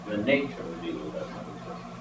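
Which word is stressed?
nature. The stress falls on the word nature. Evil exists but has no nature of its own. The speaker calls it right. "What does not exist is evil's nature"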